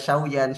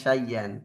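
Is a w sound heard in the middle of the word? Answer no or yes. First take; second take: yes; no. First: A w sound is heard before the y. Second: No w sound; a doubled y is heard. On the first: This is the underlying form of the word. The speaker calls it wrong. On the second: This is how the word is actually read. The speaker calls it right.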